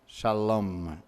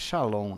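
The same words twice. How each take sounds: First: It ends with a clear M sound. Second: It ends with a blurred nasal sound. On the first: The speaker calls it right. "Tem que sair M" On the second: The speaker calls it wrong. "nem com N nem com M. É um híbrido"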